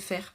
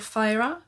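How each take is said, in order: First: The name is pronounced the French way. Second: The name is pronounced the English way. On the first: "quand je les lisais en français, je disais Faire" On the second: "comme j'ai lu le premier tome en anglais, j'ai pris l'habitude de dire Feyre"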